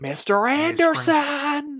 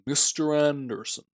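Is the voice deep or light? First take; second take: light; deep. First: The voice is light, without deep bass. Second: The voice is deep, with heavy bass. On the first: The line lacks weight and menace. The speaker calls it wrong. "He's like" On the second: The line carries weight and menace. The speaker calls it right. "I need some bass in there"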